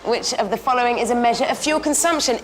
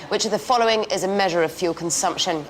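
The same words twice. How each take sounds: First: It is read in a light, casual tone. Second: It is read in a very serious tone.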